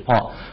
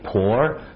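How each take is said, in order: First: The name has no r sound in it. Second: The name has an added curled r sound. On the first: The speaker calls it right. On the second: The speaker calls it wrong.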